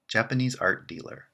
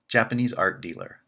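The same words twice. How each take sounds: The two takes are said the same way.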